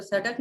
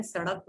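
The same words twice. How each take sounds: First: "सड़क" with hard D, "sadak"; plain D sound in "सड़क"; wrong consonant. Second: "सड़क" softer, with flapped R; "sarak", flap instead of D in "सड़क"; correct consonant. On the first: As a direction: stop the tongue in "सड़क". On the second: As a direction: flick the tongue in "सड़क". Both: Shown as a demonstration. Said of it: "पर सड़क नहीं होता है".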